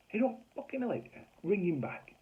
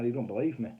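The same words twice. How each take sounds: First: Very high-pitched, incredulous repeat; outraged echo. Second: Said in the usual way. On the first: Retold or imitated. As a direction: mimic the landlady's indignant disbelief.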